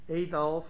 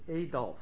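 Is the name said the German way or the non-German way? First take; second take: non-German; non-German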